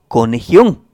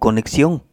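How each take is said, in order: First: The x sounds like a harsh throaty h. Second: The x sounds like ks. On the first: This follows the same pattern as the country's name. "debemos pronunciar la palabra conexión, que tiene las mismas letras que México, como conexión" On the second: This is the usual everyday pronunciation. "y no como conexión, con CS"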